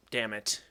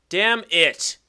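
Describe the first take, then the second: First: Low, soft curse to oneself; muted frustration. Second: Loud, higher, emphatic curse; frustrated outburst. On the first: Player reacting to a misplay, muted frustration. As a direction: curse softly under your breath. Move goes wrong in game. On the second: Player cursing a misplay, frustrated outburst. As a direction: let the curse burst out louder. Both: Real, not acted.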